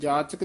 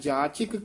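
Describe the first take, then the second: First: The second syllable has an 'a' vowel. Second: The second syllable has an 'i' vowel. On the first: The speaker calls it wrong. "ਇਹਨੂੰ ਜਾਚਕ ਨਹੀਂ ਕਹਿਣਾ" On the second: The speaker calls it right. "ਚੱਚੇ ਨੂੰ ਸਿਹਾਰੀ ਹੈ ਉਚਾਰਨ ਕਰਨੀ ਹੈ"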